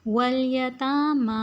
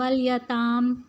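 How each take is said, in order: First: The final long vowel is held fully. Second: The final long vowel is cut off. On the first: The speaker calls it right. "वलयतामा ऐसे ही" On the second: The speaker calls it wrong. "इसे हम वलयताम नहीं पढ़ेंगे"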